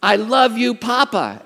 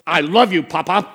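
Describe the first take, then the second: First: Higher, louder mock-stern prompting; mother dictating words. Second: Loud, creepy toddler imitation; Chucky doll. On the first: Mother telling toddler what to say, imitated firm prompting. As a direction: model the phrase as a firm order. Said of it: "Katie goes". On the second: Grandson marching back to obey mother, mock Chucky-doll voice. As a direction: force it out like a menacing doll. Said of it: "He sounds like Chucky doll".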